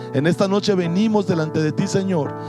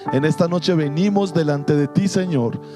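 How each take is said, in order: The two takes are said the same way.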